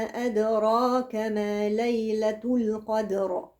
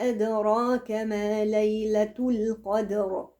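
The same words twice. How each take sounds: Both takes have the same delivery.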